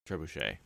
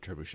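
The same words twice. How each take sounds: First: The word ends in 'shay' with no final T. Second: The word ends in 'shet' with a final T. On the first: The speaker calls it right. "agreeing on Shay" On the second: The speaker calls it wrong.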